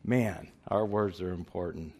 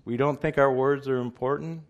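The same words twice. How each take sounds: First: Lower, falling statement of "our words are important"; emphatic answer. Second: Higher-pitched rhetorical question on "important"; incredulous question. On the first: Real, not acted. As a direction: settle "important" down as a firm answer. Answers his own rhetorical question. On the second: Acted. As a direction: challenge them, lifting "our words are important" high. Rhetorical question, answered by himself.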